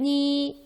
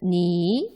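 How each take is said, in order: First: The pitch stays high and level. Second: The pitch rises from middle to high. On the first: "일성으로 표기하면" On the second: "이성으로는"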